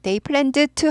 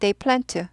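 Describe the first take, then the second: First: It is said carefully, with the d sound audible. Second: It is said quickly, with the d sound dropped. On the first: "they planned to 하지 않아요" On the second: "그냥 빨리 읽으면"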